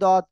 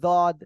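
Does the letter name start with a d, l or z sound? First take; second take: d; z. First: The first sound is a d sound. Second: The first sound is a z sound. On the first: "কেউ বলে দদ" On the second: "কেউ বলে জদ"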